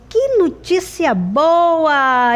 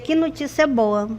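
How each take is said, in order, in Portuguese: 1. É dito com exclamação animada e alegre. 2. É dito de forma monótona, como uma simples afirmação. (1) "Eu fiquei feliz, eu fiquei alegre" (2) "com o ponto final"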